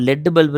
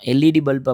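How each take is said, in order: First: LED is said as one word. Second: LED is said letter by letter. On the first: The speaker calls it wrong. "லெட் bulb இருக்கான்னு கேட்க மாட்டோம்" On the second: The speaker calls it right. "எல்-இ-டி bulb அப்படின்னு சொல்லி தான் நம்ம கேட்போம்"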